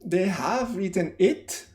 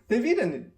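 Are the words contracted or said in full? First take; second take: full; contracted. First: Every word is said fully and separately. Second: The words are reduced and run together. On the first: The speaker calls it wrong. "I don't say" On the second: The speaker calls it right.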